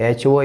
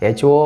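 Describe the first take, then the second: Both takes have the same delivery.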